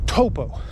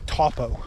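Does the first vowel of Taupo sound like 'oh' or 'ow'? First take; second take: oh; ow. First: The first vowel sounds like 'oh'. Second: The first vowel sounds like 'ow'. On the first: The speaker calls it right. "the A U sound here in New Zealand is an O. So Taupo" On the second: The speaker calls it wrong. "mispronounce Taupo and say Taupo"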